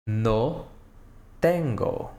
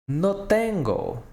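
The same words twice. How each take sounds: First: "No" and "tengo" split by a pause; word by word. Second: Said in the usual way. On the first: Shown as a demonstration. Teacher to students, slow split model. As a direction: break "No tengo" into two words.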